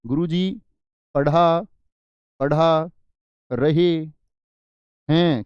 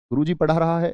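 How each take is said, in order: First: "गुरुजी... पढ़ा, पढ़ा... रहे... हैं" with pauses, the last words louder; teacher hammering the plural "रहे हैं" with pauses; correct form, stressed. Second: Said in the usual way. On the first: Shown as a demonstration. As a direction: drag out "रहे हैं" word by word. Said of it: "क्या बोलोगे". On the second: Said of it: "ऐसे इस्तेमाल करोगे क्या".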